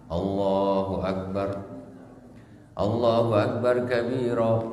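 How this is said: A brief pause separates the two phrases. The speaker calls it right. "Nah, begitu"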